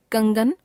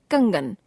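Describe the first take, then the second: First: कंगन with the pitch rising; कंगन left hanging on a rise; error example, rising. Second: कंगन with the pitch falling; corrected form, falling. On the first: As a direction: lift the end of कंगन. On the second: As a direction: close off कंगन with a fall. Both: Shown as a demonstration. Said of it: "अनुस्वार और अनुनासिक संबंधी अशुद्धियां".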